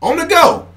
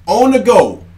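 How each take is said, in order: First: Much higher and louder on the go; emphatic repeat. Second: Said in the usual way. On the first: Shown as a demonstration. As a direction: hammer the phrase home on a high note. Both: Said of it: "repeated for emphasis".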